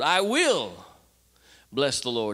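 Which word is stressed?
will. The stress is on "will".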